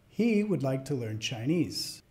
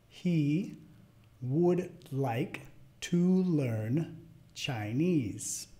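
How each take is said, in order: First: It is spoken at natural fast speed. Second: It is spoken fairly slowly. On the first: "al final las voy a decir como las diría a otro hablante nativo" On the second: "La primera vez media lento"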